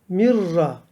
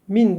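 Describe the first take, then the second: First: The n merges into a doubled r. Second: The n sound is clearly pronounced. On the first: The speaker calls it right. "de mirra" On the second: The speaker calls it wrong. "Min değil"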